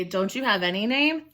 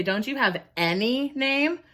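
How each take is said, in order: First: Said in the usual way. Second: ANY stretched and lifted above the other words; stress on ANY. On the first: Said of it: "I'm not gonna say". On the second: Shown as a demonstration. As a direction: punch the word "any" in the question. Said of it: "adds a little bit of emphasis to it".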